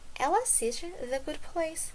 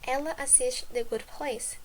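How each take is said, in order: First: It has the intonation of a question. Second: It has the intonation of a statement. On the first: It asks whether she watches the show. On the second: It states that she watches the show.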